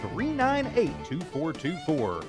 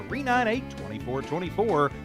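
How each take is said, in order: Both takes have the same delivery.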